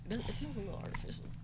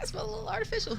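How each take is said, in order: First: It is said softly and hesitantly. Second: It is said loudly and with confidence.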